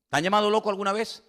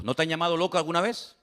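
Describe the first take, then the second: First: Faster, pushing on "llamado"; pressing rhetorical question. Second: Said in the usual way. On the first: Shown as a demonstration. Preacher challenging the congregation, stress on "llamado".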